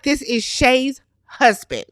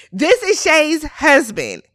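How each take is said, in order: First: Said in the usual way. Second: HUSBAND drawn out, higher, for shock; emphatic repeat. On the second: Real, not acted. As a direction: restate it slowly, leaning on "This" and "husband".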